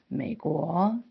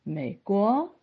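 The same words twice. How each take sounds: First: The second syllable's rise starts low, near the first. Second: The second syllable's rise starts high, leaving a gap. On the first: The speaker calls it right. "所以那个国的起音其实，比平常的二声要低" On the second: The speaker calls it wrong. "那个二呢就起音太高，中间好像就缺了一段"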